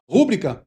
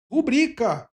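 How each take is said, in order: First: "rúbrica" said quickly as RÚ-bri-ca; mispronounced "rúbrica", front-stressed; wrong first-syllable stress. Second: "rubrica" stretched as ru-BRI-ca; corrected "rubrica", stressed on the I. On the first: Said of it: "muita gente fala errado mesmo". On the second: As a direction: lean on the middle of "rubrica". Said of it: "mas o correto é rubrica". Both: Shown as a demonstration.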